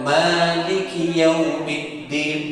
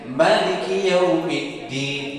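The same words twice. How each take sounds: First: The first vowel of Maliki is held long. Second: The first vowel of Maliki is kept short. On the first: "boleh dengan maknya diayun dengan dua harkat" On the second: "atau tanpa harkat"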